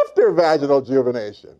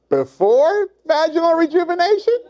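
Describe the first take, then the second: First: Falling back to the normal register; settled "after". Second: High, rising comic demonstration; high-pitched "before". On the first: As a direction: let it drop from the top and settle. Before and after comic demonstration. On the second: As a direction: push it way up high, rising at the end. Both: Shown as a demonstration.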